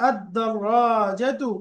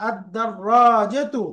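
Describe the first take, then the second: The two takes are said the same way.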